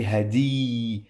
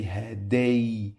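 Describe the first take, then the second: First: Hadi with a drawn-out ee at the end; wrong long-vowel version. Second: Haday ending in an ay glide, rhyming with day; correct ay glide. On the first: Teacher showing learners what not to say, wrong long vowel. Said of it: "I don't say hadi". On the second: Teacher correcting hadi for learners, correct ay glide. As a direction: say haday with ay instead of long ee. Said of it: "No, I say haday". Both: Shown as a demonstration.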